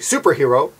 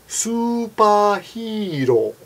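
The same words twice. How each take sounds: First: The word is said with English pronunciation. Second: The word is said with Japanese katakana pronunciation. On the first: Japanese listeners will not understand it. The speaker calls it wrong. "if you pronounce a word that comes from the English language ... in the correct pronunciation" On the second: Japanese listeners will understand it. The speaker calls it right. "you're going to have to say"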